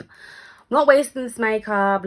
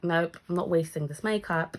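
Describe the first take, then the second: First: Louder, slow and drawn out; defiant vow to herself, spoken slowly. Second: Said in the usual way. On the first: Retold or imitated. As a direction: dig in, refusing to waste the effort. Retold self, defiant.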